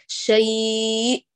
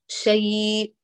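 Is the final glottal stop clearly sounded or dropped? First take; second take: clearly sounded; dropped. First: The final glottal stop is voiced with raised pitch. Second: The final glottal stop is left out entirely. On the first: The speaker calls it right. "تحافظي على جهريتها وترفعي طبقة الصوت" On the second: The speaker calls it wrong. "حتى لو ما أتينا بالنبرة ستصبح شيء شيء فين الهمزة ذهبت"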